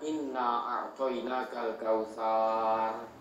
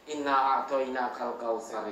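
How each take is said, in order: First: The vowel is stretched out long. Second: The vowel is said short, not stretched. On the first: The speaker calls it wrong. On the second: The speaker calls it right. "karena itu pendek ya"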